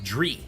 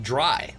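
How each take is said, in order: First: The vowel sounds like 'ee'. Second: The vowel sounds like 'eye'. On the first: The speaker calls it wrong. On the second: The speaker calls it right.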